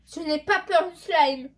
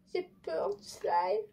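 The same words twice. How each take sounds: First: Loud and slow, full of fake bravado; bold declaration. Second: Slow, higher, small scared voice; scared admission. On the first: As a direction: boast it loudly, drawing it out. Bravely facing slime, then admitting fear. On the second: Pretend. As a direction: confess the fear, drawn out. Admits fear of slime.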